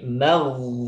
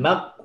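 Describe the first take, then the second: First: The final consonant is drawn out with airflow. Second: The final consonant is cut off abruptly. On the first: The speaker calls it right. "tapi magh... dia mengalir" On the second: The speaker calls it wrong. "Bukan mag"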